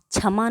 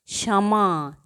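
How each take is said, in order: First: क्षमा said as t͡ʃʰəma with छ; wrong take of क्षमा like छमा; wrong pronunciation. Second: क्षमा with क्ष as ʃ-like cluster; correct pronunciation. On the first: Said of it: "नहीं बोलते". (क्षमा गलत, छमा जैसा) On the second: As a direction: model क्षमा for the class. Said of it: "क्षमा नहीं बोलते". (क्षमा सही उच्चारण) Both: Shown as a demonstration.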